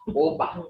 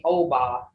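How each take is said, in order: First: Oba with a short, pure first vowel; correct short-O oba. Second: Oba with a drawn-out English "oh" at the start; wrong long-O oba. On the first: Teacher correcting the word for students, short-O oba. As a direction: say oba quickly, without the "oh" glide. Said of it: "It's oba". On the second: Teacher showing what it can't be, long-O oba. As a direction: stretch oba as "oh-bah". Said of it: "this can't be oba". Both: Shown as a demonstration.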